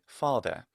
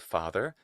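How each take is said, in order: First: The final R sound is dropped. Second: The final R sound is clearly pronounced. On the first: This is how a typical British speaker says it. "a Brit would normally say father" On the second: This is the speaker's own American pronunciation. "I say father"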